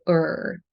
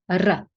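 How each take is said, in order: First: The R is said the English way. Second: The R is said the Serbian way. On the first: "in English, we say er" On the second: "if you speak Serbian ... you're going to say r"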